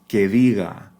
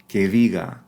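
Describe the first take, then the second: The two takes are said the same way.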